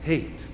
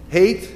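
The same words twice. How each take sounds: First: "Hate." soft and falling; quiet hate. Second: "Hate" rising and louder; stressed hate. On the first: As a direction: let "Hate." drop softly. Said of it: "this strong word, hate". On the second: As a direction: hit "Hate" up high. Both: Shown as a demonstration.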